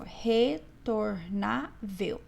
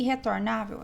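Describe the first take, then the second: First: RETORNÁVEL very slow, split re, tor, ná, vel; syllable by syllable. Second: Said in the usual way. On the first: Shown as a demonstration. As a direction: say "retornável" in four separate syllables, pausing after each. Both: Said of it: "Separe as sílabas".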